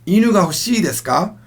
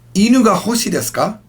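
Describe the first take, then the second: First: The final vowel of hoshii is long. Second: The final vowel of hoshii is short. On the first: It asks whether you want a dog. The speaker calls it right. "So make sure you lengthen it out" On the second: It asks whether the dog is a star. The speaker calls it wrong. "let's say you didn't lengthen out 欲しい"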